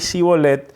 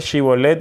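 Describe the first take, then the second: First: The word begins with an s sound. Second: The word begins with a sh sound. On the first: The speaker belongs to Ephraim. The speaker calls it wrong. "ellos no podían pronunciar correctamente Shibolet" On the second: The speaker belongs to Gilead. The speaker calls it right. "Shibolet viene, de una letra, la letra Shi en hebreo"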